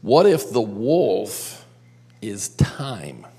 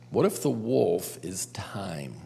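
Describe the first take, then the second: First: Said in the usual way. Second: Hushed, breathy whisper. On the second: Shown as a demonstration. Youth leader whispering the question to the group for effect. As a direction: lean in and whisper it like a secret.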